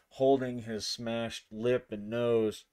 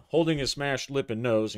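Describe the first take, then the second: First: Said in the usual way. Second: Louder restatement; louder repeat. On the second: Shown as a demonstration. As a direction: repeat the phrase clearly over the noise. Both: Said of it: "in case I covered up my audio too much".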